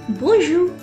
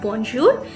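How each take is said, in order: First: The final R is soft, held back in the mouth. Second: The final R is pronounced strongly and clearly. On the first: The speaker calls it right. "The R sound stays in my tongue only" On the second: The speaker calls it wrong. "I'm not saying bonjour"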